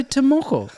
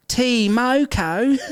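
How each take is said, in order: First: "Tomoko" said quickly as one smooth word; "Tomoko" run together naturally, high and exasperated; correct pronunciation. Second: Drawn-out mock "T Moko", pitched high; "T Moko" botched slowly as TEE-MO-KO, loudly mocking; mimicked Australian mispronunciation. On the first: Shown as a demonstration. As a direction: say "Tomoko" compactly, with an unstressed first syllable. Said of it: "can you not just say". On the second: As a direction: stretch out each syllable of "T Moko", exaggerated. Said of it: "the pronunciation thing, how Aus-, the Australians".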